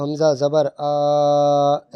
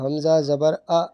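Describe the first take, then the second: First: The final vowel is stretched out long. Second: The final vowel is cut off with a jerk. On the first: "ये खींचना हो गया" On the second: "ये झटका दे रहा हूँ मैं"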